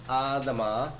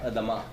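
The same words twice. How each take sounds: First: The first vowel is a clear, full a sound. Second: The first vowel is reduced to a brief schwa. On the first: "you'll hear the A sound" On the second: "it does come out like a regular vocal Shiva"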